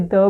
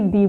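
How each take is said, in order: First: "the" said as "thuh"; a short "thuh". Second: "the" said as "thee". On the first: Teacher asking which way to say it, "thuh". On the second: Teacher asking which way to say it, "thee". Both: Shown as a demonstration. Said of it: "इस word को हम कैसे pronounce करें".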